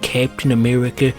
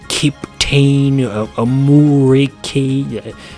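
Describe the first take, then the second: First: The name is pronounced in the usual way. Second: The name's vowels are changed into odd sounds. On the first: The speaker calls it right. "instead of calling him Captain America" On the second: The speaker calls it wrong. "they called him"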